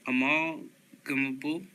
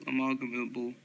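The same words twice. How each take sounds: First: "Amalgamable" slowly in two pieces, rising at the end; slow, questioning retry. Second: Said in the usual way. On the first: Real, not acted. Reader retrying a tricky word, slow and questioning "Amalgamable". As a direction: break "Amalgamable" after "Amal" and lift the ending. Retries hard word, then laughs.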